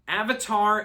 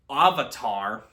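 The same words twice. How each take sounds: First: It uses the original cartoon pronunciation. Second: It uses the movie's changed pronunciation. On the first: The speaker calls it right. "Avatar is pronounced as" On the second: The speaker calls it wrong. "is pronounced as Avatar"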